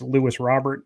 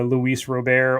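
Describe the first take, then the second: First: The first name is said like English Lewis. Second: The first name is said with Spanish-style sounds. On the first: The speaker is a casual everyday breaker. "if you are just the Joe Schmo breaker, it's Lewis Robert" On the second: The speaker is a traditionalist. "if you're the the uh, traditionalist, it's the Luis Robert"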